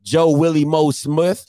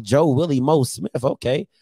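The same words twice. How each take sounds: First: Slow "Joe Willie Moe Smith" with a questioning rise at the end; incredulous question. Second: "Joe Willie Moe Smith" falling at the end, then "okay"; skeptical acceptance. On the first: Listener querying old head's odd nickname, incredulous rising question. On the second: Listener accepting old head's odd nickname, skeptical falling statement. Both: Acted.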